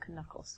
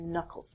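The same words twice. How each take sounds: First: The first K is pronounced. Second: The first K is silent. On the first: The speaker calls it wrong. "not your knuckles" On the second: The speaker calls it right. "your hand here are called your knuckles"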